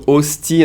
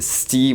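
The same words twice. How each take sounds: First: Said in the usual way. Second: "sti" as hostie with its first syllable dropped; one syllable "sti", no opening O; fast Canadian pronunciation. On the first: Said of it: "the way Canadians pronounce it". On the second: Shown as a demonstration. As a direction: clip "hostie" down to just "sti". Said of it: "when they speak a little fast".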